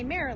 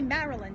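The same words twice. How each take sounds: First: It is said with a local Maryland accent. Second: It is said with a Brooklyn accent. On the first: This is how the speaker says it now. "say Maryland, because you sort of adopt" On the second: This is how the speaker used to say it. "I don't say Maryland anymore"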